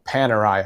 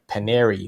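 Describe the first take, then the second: First: The name ends with an 'eye' sound. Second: The name ends with an 'ee' sound. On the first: The speaker calls it right. "So like you know Panerai" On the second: The speaker calls it wrong. "I was calling it Paneri for I don't know how many years"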